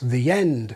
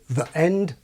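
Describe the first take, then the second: First: The words run together without a glottal stop. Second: A glottal stop separates the two words. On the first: "the same pattern with the articles that I have" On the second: "always, according to Fox, with the separating glottal stop"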